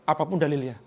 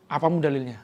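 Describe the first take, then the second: No difference in how they are said.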